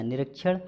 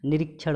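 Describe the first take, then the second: First: निरीक्षण as "ni-rak-chhan"; wrong middle vowel. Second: निरीक्षण as "ni-reek-chhan"; i in the middle. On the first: Teacher showing the error, "rak" in निरीक्षण. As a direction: use a short a midway in निरीक्षण. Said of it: "निरीक्षण होता है". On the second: Teacher correcting students, "reek" in निरीक्षण. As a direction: sound the i midway in निरीक्षण. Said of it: "होता है". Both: Shown as a demonstration.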